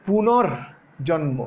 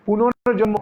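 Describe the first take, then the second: First: পুনর্জন্ম drawn out slowly, syllable by syllable; teacher slowing পুনর্জন্ম for the class; slow spelled-out demo. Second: Said in the usual way. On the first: Shown as a demonstration. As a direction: break পুনর্জন্ম slowly into its parts. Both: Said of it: "খুব খেয়াল করো কেমনে করলাম".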